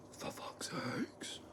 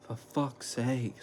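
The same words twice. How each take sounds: First: Hissed, slow whispered curse; imitated angry whisper. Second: Mild imitated angry curse. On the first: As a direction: breathe the curse out under your breath, furious. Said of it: "In that exact thing, like, Superman". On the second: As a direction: mutter it slowly, a bit of his anger. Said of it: "I can't even make it as angry as what he was".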